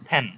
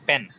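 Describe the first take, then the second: First: The first consonant has a strong puff of air. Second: The first consonant is plain, without a puff of air. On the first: The speaker calls it right. "এটা পেন হবে না, এটা ফ্যান" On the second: The speaker calls it wrong. "আমরা এটাকে আগে বলতাম পেন"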